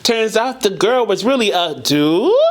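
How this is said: The pitch rises at the end like a question. It gives the verse a questioning, surprised feel. "because the inflection went up, kind of like a what? Like a question mark"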